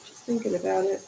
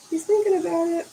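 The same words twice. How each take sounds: First: Said in the usual way. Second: Higher, a bit louder, cooing at the cat; cooing aside to the cat; higher pet-talk aside. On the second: Acted. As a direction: say it again to the cat, teasingly. Same line to the cat.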